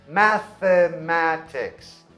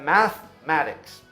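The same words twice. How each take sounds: First: Every vowel is pronounced fully. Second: The vowel after 'math' is dropped.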